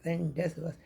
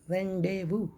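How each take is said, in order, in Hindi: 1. z और s की ध्वनियाँ उच्चारित होती हैं। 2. z और s की ध्वनियाँ मौन रहती हैं। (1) "हम इसको रेंडेजबस पढ़ रहे थे" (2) "सही प्रोनाउंसिएशन होता है रेंडेवू"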